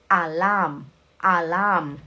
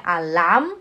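First: "alarm" as a-LAHM, falling; stress on second syllable. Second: "alarm" with misplaced stress, pitch rising at the end; wrong stress. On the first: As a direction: model "alarm" with weight on the syllable starting with l. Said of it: "é a sílaba forte". ("alarm" com sílaba forte no L) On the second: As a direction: mistaken "alarm", offered with a rising tune. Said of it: "Não é alarm". ("alarm" errado, entonação subindo) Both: Shown as a demonstration.

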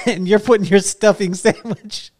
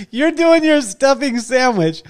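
First: Said in the usual way. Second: Higher, slow, laughing through the words; amused, half laughing it out. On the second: Real, not acted. Host laughing at the story.

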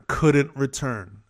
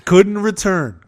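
First: Said in the usual way. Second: Emphatic echo. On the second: Real, not acted.

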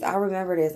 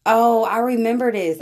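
First: Said in the usual way. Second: Excited recognition. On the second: Real, not acted. Recognizing an old clip.

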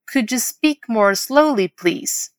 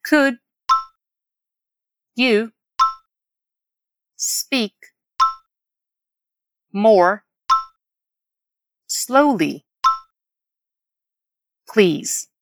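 First: Whole model phrase. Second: "Could", "you", "speak", "more", "slowly", "please" each alone; long pause after each word of "Could you speak more slowly, please". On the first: Teacher modelling a request to slow down, slow and connected. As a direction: take "Could you speak more slowly, please" slowly in one flow. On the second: Teacher repeating so learners catch it, word by word. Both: Shown as a demonstration. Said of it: "Vamos repetir a frase pra pegar bem?".

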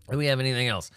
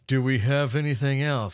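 First: Said in the usual way. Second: Put-on voice. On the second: Shown as a demonstration. Asking for more news, repeated in a goofy voice. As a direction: Do we have anything else? in an odd put-on voice.

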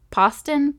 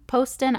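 First: "Poston" with an open "ah", PAHS-tən; short-o pronunciation. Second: "Poston" with a long "oh", POHS-tən; long-o pronunciation. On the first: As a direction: say "Poston" to rhyme its first syllable with "boss". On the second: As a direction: say "Poston" starting like the word "post". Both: Shown as a demonstration. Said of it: "if I'm saying that wrong".

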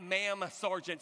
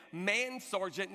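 First: MA'AM said slowly, closing on m; slow "ma'am sergeant", lips closed on the m; correct MA'AM. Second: MAN said slowly with a clear n; slow "Man sergeant" with n in place of m; mistaken MAN. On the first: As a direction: stretch "ma'am" with a clear final m. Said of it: "not ma'am sergeant". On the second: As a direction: stretch "Man", ending on n, before "sergeant". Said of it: "He thought he said". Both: Shown as a demonstration.

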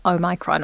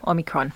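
First: Omicron said oh-MY-cron; alternative pronunciation. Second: Omicron said OM-ih-cron; alternative pronunciation. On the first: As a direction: say Omicron with a long "my" in the middle. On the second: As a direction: say Omicron with a short "mi" in the middle. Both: Shown as a demonstration. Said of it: "depending how people, um, decide to pronounce it".

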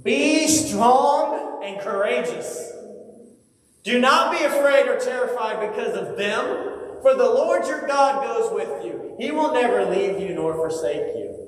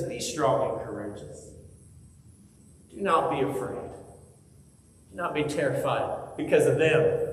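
First: Commanding encouragement. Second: Gentle reassurance. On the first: God speaking to Moses, high ringing command. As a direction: call it out like a herald. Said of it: "And he says". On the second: God reassuring us here today, soft and tender. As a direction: say it close, like comforting a child. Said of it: "He says". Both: Acted.

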